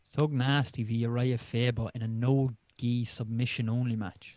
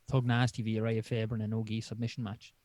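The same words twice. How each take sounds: First: "Sug Nasty" read slowly with an s sound; stumbling read of "Sug Nasty"; misread name. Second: "Thug Nasty" with a clear th sound; careful reread of "Thug Nasty"; corrected name. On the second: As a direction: say "Thug Nasty" properly, th at the start. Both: Real, not acted. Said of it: "Say that again".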